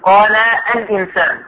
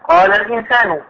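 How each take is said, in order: First: A glottal stop is pronounced before the article. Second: The glottal stop is dropped and the words link. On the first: The speaker calls it wrong. "لا تقول قال الإنسان، خطأ" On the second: The speaker calls it right. "هذه الألف أل تسقط في الكلام"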